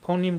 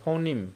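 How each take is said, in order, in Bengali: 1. এটি 'foh-neem' হিসেবে উচ্চারিত হয়, neem দিয়ে শেষ। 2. এটি 'foh-neem' হিসেবে উচ্চারিত হয়, neem দিয়ে শেষ।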